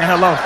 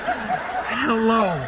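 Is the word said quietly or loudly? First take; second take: loudly; quietly. First: The word is shouted loudly. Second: The word is said at a normal, quiet level.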